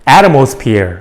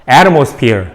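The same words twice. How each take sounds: The two takes are said the same way.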